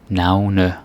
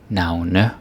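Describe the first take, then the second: Both takes have the same delivery.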